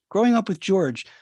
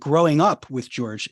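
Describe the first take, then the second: First: The emphasis falls on the word George. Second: The emphasis falls on the words growing up. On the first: The father is seen as a person, not as a parent. "if you emphasize the growing up with George, with this George guy" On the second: It is the story of one's own individuation. "if you emphasize the growing up part"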